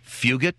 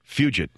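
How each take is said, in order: First: The G is said without a J sound. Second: The G is said like a J sound.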